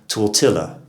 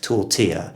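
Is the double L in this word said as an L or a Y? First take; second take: L; Y. First: The double L is said as an L sound. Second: The double L is said as a Y sound. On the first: The speaker calls it wrong. "You'd have thought if we had guerrilla, we'd have tortilla, but it's not the case" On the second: The speaker calls it right. "we have adopted the Spanish pronunciation"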